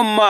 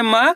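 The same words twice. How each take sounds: First: "मा" with a long held aa; teacher's lengthened "मा"; drawn-out vowel. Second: Said in the usual way. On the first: Shown as a demonstration. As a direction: stretch the aa in "मा" and let it fall. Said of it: "आ की मात्रा लगी तो". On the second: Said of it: "इसको simple पढ़ रहे".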